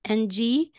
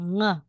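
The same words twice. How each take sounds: First: Said in the usual way. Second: "Ng" hummed as one nasal ng; "Ng" as one nasal sound, not spelled out. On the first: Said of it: "or empty consonant". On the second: Shown as a demonstration. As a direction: say "Ng" as the ending of sing. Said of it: "Yung bigkas niya".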